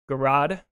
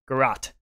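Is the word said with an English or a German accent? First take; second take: English; German. First: It is said with an English accent. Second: It is said with a German accent, harsh ending. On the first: "Gerade in English" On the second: "You want to have that harsh ending to the word to give you that German accent"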